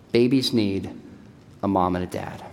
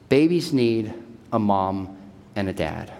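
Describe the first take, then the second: No difference in how they are said.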